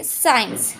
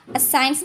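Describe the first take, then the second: First: साइंस starting straight on a single s; silent letter. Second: साइंस with a short vowel sound before the s; साइंस with the silent letter given a sound; mispronounced, extra sound. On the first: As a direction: correct साइंस, "sains" with no extra sound. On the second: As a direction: say साइंस wrongly as "uh-sains". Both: Shown as a demonstration. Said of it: "साइंस नहीं".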